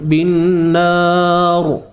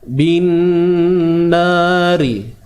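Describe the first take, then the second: First: The word ends on a bare consonant. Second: The word ends with a short vowel sound. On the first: The reader stops at this point. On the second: The reading continues into the next words.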